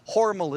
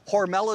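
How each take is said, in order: First: The name is said in a German-sounding way. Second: The name is said in an Americanized way. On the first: This is how the family name is said. "Hormel is the family ... sounded too German" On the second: This is how the company name is said. "Hormel is the company"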